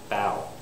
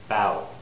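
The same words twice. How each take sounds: First: The vowel glides toward a w sound. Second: The vowel glides toward a w sound.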